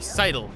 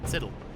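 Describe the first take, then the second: First: The first vowel is long, as in 'side'. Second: The first vowel is short, as in 'sit'. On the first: "Or sidle, if you want to say it that way" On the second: "Yes, I said siddle"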